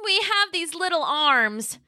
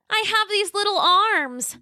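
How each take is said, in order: First: High, slow plaintive little T-Rex; Roxy pleading, slower. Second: High, pleading little T-Rex; a hint of a plaintive cry, stress on have; Roxy pleading. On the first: Acted. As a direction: draw out the complaint, leaning on have. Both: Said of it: "Roxy cried".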